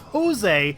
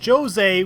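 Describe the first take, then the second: First: The name begins with an H sound. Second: The name begins with a J sound. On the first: This is how others say it should be pronounced. "the correct pronunciation is Jose" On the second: This is how the game's characters say it. "call him Jose with a J"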